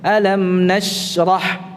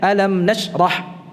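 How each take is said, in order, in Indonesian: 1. Bunyi sh ditahan panjang dan halus. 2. Bunyi sh dipotong pendek, seperti ditasydid.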